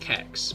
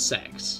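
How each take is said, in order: First: The name begins with a hard K sound. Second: The name begins with a soft S sound. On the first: The speaker calls it wrong. "no one's going to pronounce the hard" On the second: The speaker calls it right. "it's a soft C, so it's a S sound"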